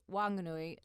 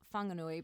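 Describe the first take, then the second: First: The name begins with a plain w sound. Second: The name begins with a wh sound. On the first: "they ask us to say Wanganui" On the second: "not Whanganui"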